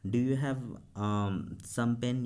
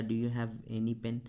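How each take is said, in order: First: Said in the usual way. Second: "Do you have any pen?" said very slowly, word by word; slow teacher dictation. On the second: Shown as a demonstration. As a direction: spell it out slowly for the class. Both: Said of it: "या".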